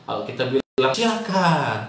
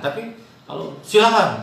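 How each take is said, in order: First: Said in the usual way. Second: Silakan said higher and louder; marked silakan. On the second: Shown as a demonstration. Teacher contrasting two ways of saying silakan, the second higher and louder.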